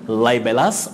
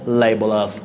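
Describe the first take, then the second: First: The vowel in the last syllable is full. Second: The vowel in the last syllable is weak.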